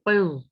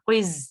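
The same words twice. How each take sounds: First: The consonants are heavy and thick. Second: The consonants are light and thin. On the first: The speaker calls it right. "मोटा पढ़ेंगे" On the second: The speaker calls it wrong. "ऐसे नहीं पढ़ना"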